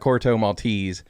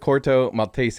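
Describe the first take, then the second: First: It is pronounced with English-style vowels and sounds. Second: It is pronounced with Spanish-style vowels and sounds. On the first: This is how most people say it. "most people call it" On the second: This is how a Spanish speaker says it. "that's how he pronounced it"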